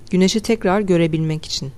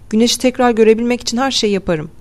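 First: Said in the usual way. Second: Raised pitch, mildly urgent plea; eager declaration. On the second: A narrator's reading. Hattie agrees to the escape, eager declaration. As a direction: push it out with raised, earnest resolve. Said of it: "Hattie Thurman atıldı".

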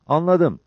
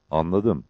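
First: High, quick acknowledgement; eager higher-voiced reply; Cabbar. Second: Composed short reply; Mehmet. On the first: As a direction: answer in a lifted pitch. Cabbar answers the leader. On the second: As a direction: answer evenly, without lift. Mehmet answers the leader. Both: A narrator's reading.

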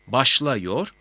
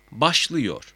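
First: "Başlıyor" said as başlayor, rising; unnarrowed A vowel. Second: "başlıyor" with ı before -yor, falling; narrowed vowel. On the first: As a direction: keep an a before -yor in "Başlıyor". ("Başlıyor", ı yerine a ile) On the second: ("başlıyor", daralmış ı ile) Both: Shown as a demonstration. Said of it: "A E ünlülerini daraltır".

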